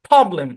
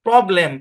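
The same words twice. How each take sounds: First: The first syllable is clearly stressed. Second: Both syllables are said evenly with no stress. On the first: The speaker calls it right. "ইংলিশের ভাই tone আছে ... মানে stress আছে" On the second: The speaker calls it wrong. "সব একদম এক টানে পড়ে"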